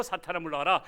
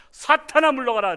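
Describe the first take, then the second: First: Said in the usual way. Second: Commanding rebuke. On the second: Shown as a demonstration. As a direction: shout it out high and loud. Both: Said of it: "이렇게 말해야 되니까".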